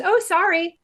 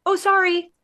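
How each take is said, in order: First: High, quick oh sorry; mock apology. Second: High, fluttery oh sorry; mock apology. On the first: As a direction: imitate the shopper apologizing. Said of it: "she goes". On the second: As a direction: imitate a reflexive apology. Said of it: "indoctrinated to say".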